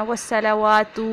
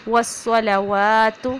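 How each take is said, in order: First: والصلوات with the final ta stretched; wrong recitation. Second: والصلوات slow, last ta kept short; correct recitation. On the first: Teacher showing a common mistake in والصلوات. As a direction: say والصلوات dragging the last ta. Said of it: "نہیں پڑھیں گے". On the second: Teacher giving the right والصلوات after the wrong one. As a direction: recite والصلوات with clipped final ta. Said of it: "تا کو لمبا نہیں ہونے دینا". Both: Shown as a demonstration.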